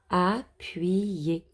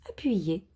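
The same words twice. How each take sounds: First: Said in the usual way. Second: "Appuyer" whispered with a long final vowel. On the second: Shown as a demonstration. Teacher whispering the word to the children.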